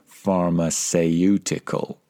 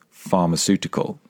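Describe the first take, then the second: First: The middle vowel is said fully and carefully. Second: The middle vowel is short and simple. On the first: The speaker calls it wrong. "Don't be tempted to pronounce it phonetically" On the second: The speaker calls it right. "The vowel sound in the middle is very simple"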